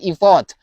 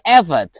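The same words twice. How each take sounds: First: The word is said in a learner-style way. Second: The word is said in the standard way. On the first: The speaker calls it wrong. "bukan effort" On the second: The speaker calls it right. "tapi effort"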